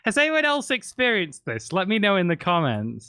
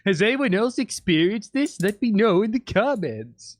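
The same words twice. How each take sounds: First: It is said in his natural voice. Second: It is said in a put-on character voice.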